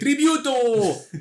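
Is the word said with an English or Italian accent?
Italian. It is said with an Italian accent. "if you're Italian, you'll say Tributo ... you have a little more Latin flair"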